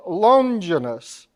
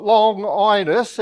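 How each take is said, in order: First: Longinus as one word, LON-ji-nus; correct pronunciation. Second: Long Inus split in two, LONG then INus; wrong pronunciation. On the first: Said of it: "It's not Long Inus, it's Longinus". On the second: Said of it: "It's not Long Inus". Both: Shown as a demonstration.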